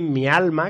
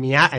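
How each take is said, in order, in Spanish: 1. La palabra tiene un sonido L antes de 'ma'. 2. La palabra tiene un sonido R antes de 'ma'. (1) "en vez de decir mi alma" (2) "los sevillanos... muchos de ellos... dicen mi arma"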